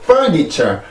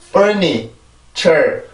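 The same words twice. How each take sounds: First: The last two syllables are flattened with no beat. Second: The last two syllables keep a small rhythmic beat. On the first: The speaker calls it wrong. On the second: The speaker calls it right.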